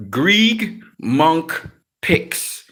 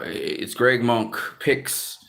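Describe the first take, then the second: First: Spelled-out slow. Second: Slow. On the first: Shown as a demonstration. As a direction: say Greg Monk Picks very slowly, word by word. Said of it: "you have to type in". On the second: Real, not acted. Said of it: "my other channel, which is".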